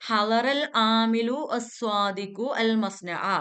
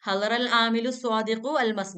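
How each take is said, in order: First: The article's vowel is said as a separate syllable. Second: The article's vowel is dropped, linking the two words.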